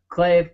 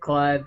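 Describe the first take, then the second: First: The vowel sounds like 'ay', rhyming with glaive. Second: The vowel sounds like 'eye', rhyming with five. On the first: "I've done Clave" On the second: "I've done Clive"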